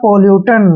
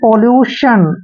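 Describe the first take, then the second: First: The ending is said with a 't' sound. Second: The ending is said with a 'sh' sound. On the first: The speaker calls it wrong. "जो कि गलत है" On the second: The speaker calls it right. "टी आई ओ एन को हम हमेशा शन पढ़ते हैं"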